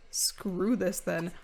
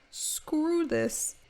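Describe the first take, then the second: First: Slow fed-up. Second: High exasperated. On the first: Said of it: "She's like". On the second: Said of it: "He's like". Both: Pretend.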